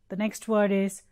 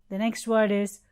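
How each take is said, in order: Both takes have the same delivery.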